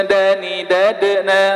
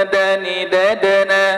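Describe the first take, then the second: The two takes are said the same way.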